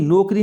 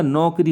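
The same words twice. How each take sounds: First: नौकरी said as "no-kri", plain o; wrong vowel demo. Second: नौकरी as "nau-kri", open au; correct vowel demo. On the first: Teacher showing the error, नौकरी as no-kri. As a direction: round the first vowel of नौकरी to o. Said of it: "नौकरी नहीं होता". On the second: Teacher correcting children, नौकरी as nau-kri. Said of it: "नौकरी होता है". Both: Shown as a demonstration.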